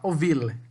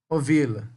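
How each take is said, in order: First: A faint vowel is heard after the final l. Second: The word ends on the l, said quickly. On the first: "O final é como se tivesse um E no final" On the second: "quando a gente fala rápido, a gente não percebe"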